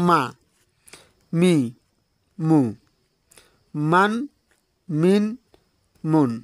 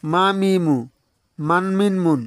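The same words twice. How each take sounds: First: "মা, মি, মু, মান, মিন, মুন" cut apart, a long pause after each; syllable by syllable. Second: "মা মি মু, মান মিন মুন" joined in two smooth groups of three; read straight through. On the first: Teacher shows learners each letter's sound, cut apart with pauses. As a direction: say মা, মি, মু, মান, মিন, মুন one at a time, isolated. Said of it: "উচ্চারণ দেব কাটা কাটা". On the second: Teacher now reads letters directly for learners, syllables joined up. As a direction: run মা মি মু together, then মান মিন মুন. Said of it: "এখন আমি সরাসরি অক্ষর উচ্চারণ দেব".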